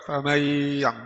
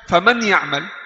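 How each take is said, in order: First: The n and its nasal hum are dropped entirely. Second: The n is pronounced clearly, not merged into ya. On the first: A letter of the text is deleted. "kalau gunnah dihilang, jadi tidak ada nun" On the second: The word stays correct but the assimilation is skipped. "izhar ini bukan idgham, salah"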